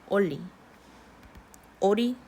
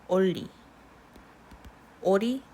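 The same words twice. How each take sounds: The two takes are said the same way.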